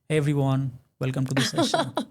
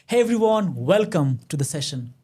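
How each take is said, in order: First: The voice sounds flat and lacking confidence. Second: The voice sounds confident and full of feeling. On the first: The speaker calls it wrong. "If I speak like that, nobody's going to listen to me" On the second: The speaker calls it right. "I bring the tone of confidence"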